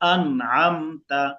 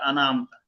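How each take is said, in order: First: The n sound is held, then the next syllable. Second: An extra vowel follows the n sound. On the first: The speaker calls it right. "নুনটাকে ধরে আইনটা শুরু করতে হবে।" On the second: The speaker calls it wrong. "মানুষে আনা আনা আমতা বলে"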